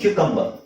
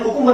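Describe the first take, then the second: First: The word begins with a 'kyoo' sound. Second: The word begins with a plain 'koo' sound. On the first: This is the standard pronunciation. The speaker calls it right. "Correct pronunciation ಬಂದು" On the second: This is how people say it in everyday speech. The speaker calls it wrong. "ಕುಕುಂಬರ್ ಅಂತ ಹೇಳ್ತಾರೆ ಆಡು ಭಾಷೆಯಲ್ಲಿ"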